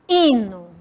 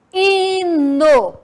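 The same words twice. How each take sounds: First: Said in the usual way. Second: Hino said slowly, silent h, stress on the i; dictating Hino to the class; clear dictation. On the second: Shown as a demonstration. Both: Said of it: "Percebam o som das letras".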